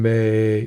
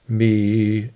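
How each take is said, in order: First: The vowel is opened toward an 'ay' sound. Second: The vowel is a closed 'ee' sound. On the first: It makes the sound open up and is easier to produce. "she's singing may, more of a may" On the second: It is not as open a sound. "me is kind of closed off"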